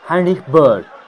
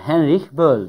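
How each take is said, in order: First: The name is pronounced with German sounds. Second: The name is pronounced with English sounds. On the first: "Almanya'dan bizi takip eden birkaç tane kullanıcımız yorumlara şey dedi" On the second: "İngilizce okunuşuna göre Henrik Böll demiştim"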